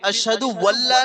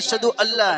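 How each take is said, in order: First: The second word begins with a w sound. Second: The second word begins with a plain vowel. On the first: The speaker calls it wrong. "अशहदु वल्ला नहीं है" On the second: The speaker calls it right. "अशहदु अल्लाह है"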